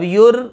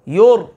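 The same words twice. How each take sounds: First: The r sound is thin and light. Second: The r sound is heavy and full. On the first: The speaker calls it wrong. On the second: The speaker calls it right.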